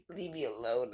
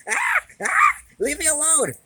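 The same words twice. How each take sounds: First: Softer, laughing through leave me alone; half-laughing mock sulk. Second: High, loud screech of leave me alone; shrieking. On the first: Cat grumbling to its owner while laughing, softer. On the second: Acted. Cat shrieking at its owner to be left alone, high and loud. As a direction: shriek it at the top of the voice.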